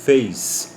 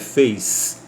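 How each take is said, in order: No difference in how they are said.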